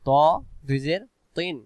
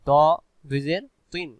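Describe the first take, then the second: First: The sound is rounded and heavy. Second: The same.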